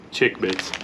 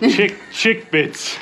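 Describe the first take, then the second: First: Said in the usual way. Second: High, slow, playful name reading; playful drawn-out. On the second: Pretend. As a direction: stretch the name out, amused. Reading odd snack name aloud.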